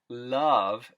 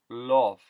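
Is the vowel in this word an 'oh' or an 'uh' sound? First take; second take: uh; oh. First: The vowel is a short 'uh' sound. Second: The vowel is an 'oh' sound.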